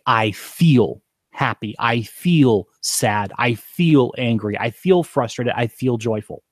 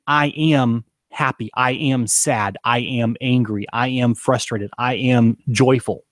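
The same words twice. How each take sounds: First: "feel" drawn out and leaned on, slowly; slow, lean on "feel" each time; slow and deliberate, pressing "feel" in every phrase; stress on feel. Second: Said in the usual way. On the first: Shown as a demonstration. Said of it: "you say". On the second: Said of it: "instead of saying".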